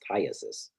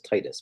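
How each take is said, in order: First: The word ends with an 'iasis' sound. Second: The word ends with an 'itis' sound. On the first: The speaker calls it right. "but it's Tiasis" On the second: The speaker calls it wrong. "Everybody says Titus"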